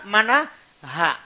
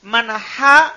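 First: Mana ha said slowly with a softer ha. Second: Ha pushed loud and rising; contrasted ha. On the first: Teacher contrasting the two h letters for students, slow soft ha. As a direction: ease out the second ha gently. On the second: Teacher making students separate the h letters, loud ha. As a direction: stress the ha sound. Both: Shown as a demonstration. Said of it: "harus antum pisahkan".

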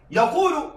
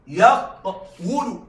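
First: Said in the usual way. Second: يقول split slowly as yaq-wu-lu; underlying form. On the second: Shown as a demonstration. Teacher showing students the original form, يقول slowly as yaq-wulu. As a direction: sound the hidden consonant w in يقول, drawn out. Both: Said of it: "هو في الأصل".

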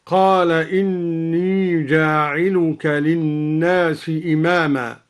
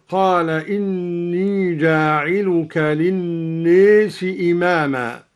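First: Said in the usual way. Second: للناس with its long a tilted toward "ee", as "linnees"; imala in للناس. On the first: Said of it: "بإمالة ألف الناس". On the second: Shown as a demonstration. Teacher demonstrating al-Duri's reading, للناس said with imala. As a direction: recite with the alif of للناس bent to an e sound. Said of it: "قرأ الدوري بإمالة ألف الناس هكذا".

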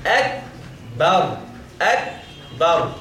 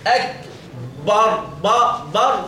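First: Slow, separated "أكبر" with a thin ب; light ba. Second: Slow "أكبر" with a thickened, emphatic ب; heavy ba error. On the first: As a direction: model "أكبر" correctly, keeping the ب light before the ر. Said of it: "أما تفخم الباء". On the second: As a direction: show the mistake in "أكبر", making "بر" heavy. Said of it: "ده خطأ أيضًا". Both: Shown as a demonstration.

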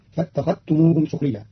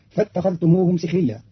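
First: سخريا said "sukhriyya" with u after s; سخريا بضم السين; sin with damma. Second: Said in the usual way. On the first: Shown as a demonstration. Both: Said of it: "وضم سين سخريا".

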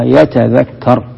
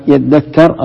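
First: Slow, careful يتذكر with the t fully sounded before the dh; teacher showing the original يتذكر; original form. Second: Slow, careful يذكر with the t merged into a doubled dh; teacher showing the merged يذكر; assimilated form. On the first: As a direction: say يتذكر as yatadhakkar, every letter clear. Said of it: "أصلها يذكر". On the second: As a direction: say يذكر as yaddakkar, stressing the doubled dh. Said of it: "أصلها يتذكر". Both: Shown as a demonstration.

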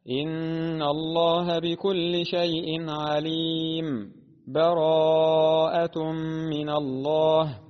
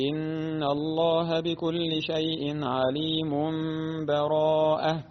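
First: عليم held, then a brief stop before براءة, slow chant; slow tajweed recitation with sakt between the suras; pause before براءة. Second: عليم runs straight into براءة, the final n turned to m; connected recitation without a stop; joined with iqlab. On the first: Teacher demonstrates sakt between Al-Anfal and Bara'a: slow chant. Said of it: "فهنا أيضًا وجه السكت هكذا". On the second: Teacher demonstrates wasl with iqlab: عليم joined to براءة. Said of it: "وجه ثان وهو الوصل مع الإقلاب". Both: Shown as a demonstration.

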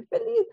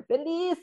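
First: Feliz pitched way up and louder, sing-song; beaming feliz. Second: Feliz sung out higher, bright and upbeat; chirpy happy answer. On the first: Ingrid insisting to friends, feliz soaring high. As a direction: toss feliz up high and proud. Her cheerful daily answer, end. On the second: Ingrid answering friends each day, chirpy and higher. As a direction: chirp feliz like it's obvious. Her cheerful daily answer. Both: Retold or imitated.

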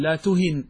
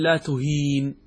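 First: "لا تهن" with a short i, la tuhin; short vowel. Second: "لا تهين" with a long ee, la tuheen; long vowel. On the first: Teacher gives the corrected form, "تهن" with short i. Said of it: "وإنما تقول". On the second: Teacher shows the rejected form, "تهين" with long ee. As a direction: hold the ee in "تهين" before a bare n. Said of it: "كذلك أنت لا تقول". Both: Shown as a demonstration.

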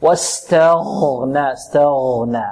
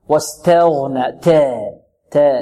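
First: Slow واستغنى with thin ت and full غ; light taa, heavy ghayn. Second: Slow واستغنى with ت vowel bent toward "teh"; tilted taa. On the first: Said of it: "التاء مرققة". (واستغنى بتاء مرققة وغين مفخمة) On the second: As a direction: say the تا of واستغنى wrongly as "te". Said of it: "نحذر من تقليل التاء". (واستغنى بتقليل فتحة التاء) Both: Shown as a demonstration.

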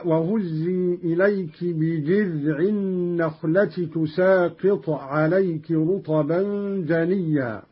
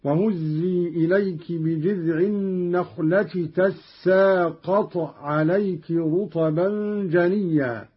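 First: Said in the usual way. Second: تساقط said as "tassaaqat"; fatha and doubled sin. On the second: Shown as a demonstration. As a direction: open ta, then a held double s in تساقط. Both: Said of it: "بفتح التاء وتشديد السين".

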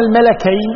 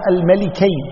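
First: "الملكين" said al-malakayn, pitched higher; fatha on the lam. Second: "الملكين" said al-malikayn; kasra on the lam. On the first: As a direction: put an A after the L in "الملكين". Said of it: "أما إذا قلنا". ("الملكين" بفتح اللام) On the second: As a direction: put a short I after the L in "الملكين". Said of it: "بكسر اللام". ("الملكين" بكسر اللام) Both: Shown as a demonstration.

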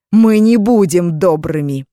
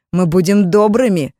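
First: Slow loud menacing shout; menacing threat. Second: Loud falsely kind promise; mock-friendly shout. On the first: Acted. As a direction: stress мы, threaten slowly. Mages threatening after laughter. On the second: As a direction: call out a sweet threat. Mages promise kindness.

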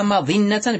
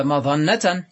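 First: مظنة as madinna, i on the emphatic d; kasra form. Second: مظنة as madanna, a on the emphatic d; first dialect form. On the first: Teacher showing the second dialect, مظنة said madinna. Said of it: "بالكسر قياسا فيهما". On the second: Teacher showing the first dialect, مظنة said madanna. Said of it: "فعلى اللغة الأولى". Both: Shown as a demonstration.

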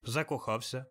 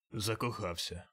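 First: Said in the usual way. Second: Scornful grumble. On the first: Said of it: "запитав Скрудж". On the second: A narrator's reading. Scrooge mocking his nephew's answer, scornful grumble. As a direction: sneer at the word Закохався as nonsense. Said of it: "пробурчав Скрудж таким тоном".

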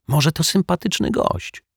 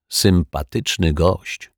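First: High-pitched, tentative benefit of the doubt; high, well-meaning maybe; hopeful suggestion. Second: Slow, drawn-out sceptical repeat; slow narrator's ironic echo. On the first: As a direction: offer it lightly, pitched well up. Detective hopefully defends the newcomer. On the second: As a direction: stretch the words out with dry doubt. Narrator echoes the hope ironically. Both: A narrator's reading.

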